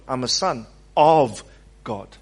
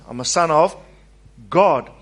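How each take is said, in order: First: The stress is on the word son. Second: The stress is on the word God.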